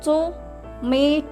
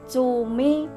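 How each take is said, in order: First: There is a pause between the two syllables. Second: The word is said smoothly without a pause. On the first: The speaker calls it wrong. "menjedanya salah" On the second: The speaker calls it right. "menjeda setiap kata"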